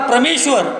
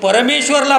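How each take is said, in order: First: The word begins with a 'pra' consonant cluster. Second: The word begins with a full 'pa-ra' syllable. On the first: The speaker calls it wrong. "असं नाही म्हणता येणार" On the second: The speaker calls it right. "परमेश्वरासाठी तिथं प्र वापरता येणार नाही, तिथं परच वापरावं लागेल"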